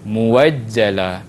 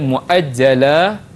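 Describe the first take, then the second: First: A w sound follows the first vowel. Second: A glottal stop follows the first vowel. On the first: "tukar kepada muwajjala" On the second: "Asal dia muajjala"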